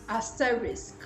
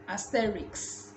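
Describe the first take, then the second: First: The word ends with s followed by k. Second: The word ends with k followed by s. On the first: The speaker calls it right. "like you pronounce the risk at the end" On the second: The speaker calls it wrong. "A lot of people say asterix"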